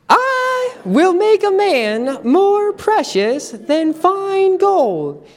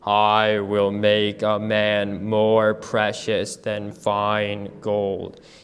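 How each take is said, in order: First: It is said in a high-pitched voice. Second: It is said in a very low voice. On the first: "use your high-pitched voice and say the verse with me" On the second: "Let's do it in a low voice, as low as we can go"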